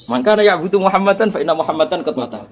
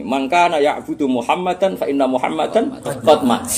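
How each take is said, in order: First: Higher-pitched Arabic quotation; mock speech delivery. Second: Slow, measured Arabic quotation; speech recitation. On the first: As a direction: imitate an orator with raised pitch, at normal pace. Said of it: "Malah nak pidato ning ngene jarene". (meniru pidato, nada meninggi) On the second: Acted. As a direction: recite it like an orator, drawing it out. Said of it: "Akhirnya pidatonya begini". (pidato pelan dan terukur)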